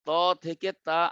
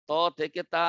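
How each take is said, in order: Both takes have the same delivery.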